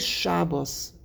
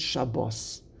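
First: The word has a Yiddish pronunciation. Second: The word has a Hebrew pronunciation. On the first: The speaker is talking in Yiddish. "it means you're saying it in Yiddish" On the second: The speaker is talking in Hebrew. "if you want to go say it in Hebrew"

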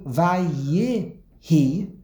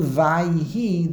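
First: The shva is pronounced as a short vowel. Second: The shva after the first syllable is silent. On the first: The speaker calls it right. "it's a shva no. The yud gets a life" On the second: The speaker calls it wrong. "the yud is a shva noch"

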